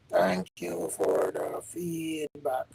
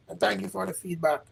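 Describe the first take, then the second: First: Slow, lower and softer; half-speed quiet repeat of the thanks. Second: Said in the usual way. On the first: Real, not acted. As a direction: draw the thanks out gently and lower.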